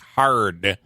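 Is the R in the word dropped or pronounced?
pronounced. The R sound is clearly pronounced. "a word that has an R, like hard"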